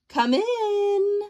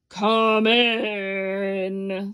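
First: It is said in a plain voice. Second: It is said in a growly voice.

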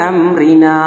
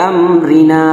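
No difference in how they are said.

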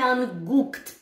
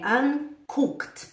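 First: The g is pronounced as a voiced g sound. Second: The g is pronounced as a voiceless k sound. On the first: The speaker calls it wrong. "Mas não é anguckt" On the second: The speaker calls it right. "é anguckt, porque o G tem som de K"

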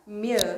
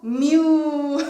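First: The vowel is said with lips spread sideways. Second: The vowel is exaggerated with strongly rounded lips. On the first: The speaker calls it right. "최대한 옆으로 벌리려고 애쓰면서 발음하면 그나마 조금 비슷해져요" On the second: The speaker calls it wrong. "너무 뮤 이렇게 하지 마세요"

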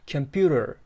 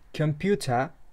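First: The final r is clearly pronounced. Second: The final r is not pronounced. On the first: "in the American Englishda computer" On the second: "British Englishda computer"

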